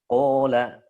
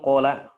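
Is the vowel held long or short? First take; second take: long; short. First: The long vowel is held fully and clearly. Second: The long vowel is cut short and unclear. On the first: The speaker calls it right. "Makanya harus disempurnain matnya" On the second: The speaker calls it wrong. "itu kan nggak ketahuan ya"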